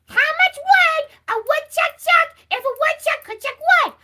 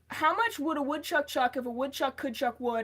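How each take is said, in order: First: It is said in an Elmo impression voice. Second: It is said in the speaker's normal voice.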